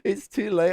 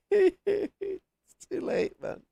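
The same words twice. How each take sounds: First: Said in the usual way. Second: Very slow words broken by laughter; laughing. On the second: Real, not acted. Streamer cracking up late at night, laughing speech. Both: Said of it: "I wanna laugh really loud".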